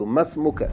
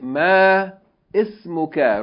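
First: The words run together with no glottal stop. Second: The glottal stop before 'ismuka' is pronounced separately. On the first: The speaker calls it right. "without pronouncing Hamzatul wasl" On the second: The speaker calls it wrong. "We don't say ma ismuka"

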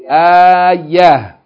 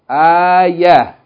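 First: The word ends with an h sound. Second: The same.

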